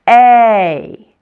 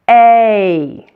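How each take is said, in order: No difference in how they are said.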